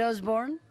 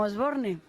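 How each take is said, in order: First: The name is pronounced with English sounds. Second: The name is pronounced with Spanish sounds. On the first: The family name is still foreign. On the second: The family name has become local.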